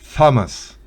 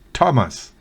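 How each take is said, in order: First: It starts with a th sound. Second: It starts with a plain t sound. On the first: The speaker calls it wrong. "no es Thomas" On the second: The speaker calls it right. "sino Thomas"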